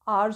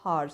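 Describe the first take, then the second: First: The word starts directly with a vowel sound. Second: The word starts with an audible h sound. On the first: The speaker calls it right. "आवर्स होता है" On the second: The speaker calls it wrong. "Not हार्स"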